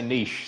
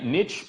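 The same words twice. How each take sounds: First: The word is pronounced the Australian way. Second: The word is pronounced the American way. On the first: This is how people in Australia say it. "in Australia, we say niche" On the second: This is how people in the States say it. "in the States, you guys say niche"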